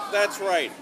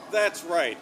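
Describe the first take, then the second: No difference in how they are said.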